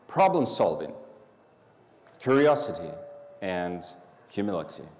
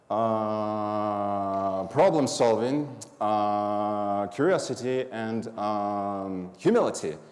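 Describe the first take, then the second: First: The list flows without any filler sounds. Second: Filler sounds like uh and um interrupt the list. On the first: The speaker calls it right. "Here's go the first one" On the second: The speaker calls it wrong. "Filler words"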